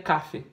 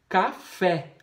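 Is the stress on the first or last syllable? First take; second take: first; last. First: The stress is on the first syllable. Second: The stress is on the last syllable. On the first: The speaker calls it wrong. "não é café" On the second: The speaker calls it right. "Café é uma oxítona"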